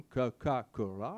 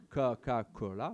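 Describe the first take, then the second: First: Coca-Cola said slowly in a mock Chinese pronunciation, each syllable drawn out; Chinese-style Coca-Cola. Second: Coca-Cola again in a slow, deliberate attempt at the Chinese pronunciation; Chinese-style Coca-Cola retry. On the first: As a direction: sound out Coca-Cola the way it's said in Chinese, slow and careful. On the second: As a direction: try Coca-Cola once more, drawn out, as a Chinese speaker would say it. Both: Shown as a demonstration. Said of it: "mon accent chinois n'est pas très, très bon".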